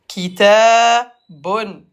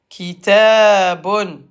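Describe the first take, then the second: No difference in how they are said.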